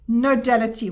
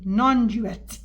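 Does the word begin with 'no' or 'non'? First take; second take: no; non. First: The word is said as nodality. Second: The word is said as non-duality. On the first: The speaker calls it wrong. "What the hell am I saying?" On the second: The speaker calls it right. "I didn't even pronounce it correctly"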